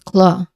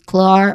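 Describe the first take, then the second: First: The final R sound is dropped. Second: The final R sound is clearly pronounced. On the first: "If it's not, that is British English" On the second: "If it's pronounced clearly, clearly, that's American English"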